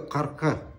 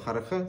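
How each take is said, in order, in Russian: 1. Начинается с гортанного звука «к». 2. Начинается со звука, похожего на h.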